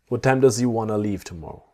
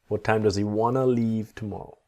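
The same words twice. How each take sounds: First: The sentence is said at a faster pace. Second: The sentence is said at a slower pace.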